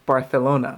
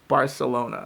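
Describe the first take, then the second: First: It is said with the local native pronunciation. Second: It is said with an English-style pronunciation. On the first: The speaker calls it right. "this should be" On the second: The speaker calls it wrong. "if I listen to other native English speakers, then this is pronounced"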